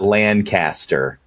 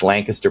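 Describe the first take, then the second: First: It is said the non-local way. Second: It is said the local way. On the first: The speaker calls it wrong. "it's not Lancaster" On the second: The speaker calls it right. "It's Lancaster, Pennsylvania"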